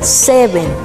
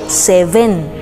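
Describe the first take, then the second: First: The stress is on the first syllable. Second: The stress is on the second syllable. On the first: The speaker calls it right. "su pronunciación es seven" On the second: The speaker calls it wrong. "si le pones un énfasis incorrecto, sería casi diciendo se ven"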